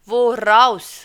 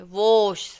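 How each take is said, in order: First: An r sound links the two vowels. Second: The vowels run together with no r sound. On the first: The speaker calls it right. "एक एर लगा देने से इसका उच्चारण बहुत अच्छा हो जाता है" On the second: The speaker calls it wrong. "आर मत लगाइए, आप इसको कैसे बोलेंगे?"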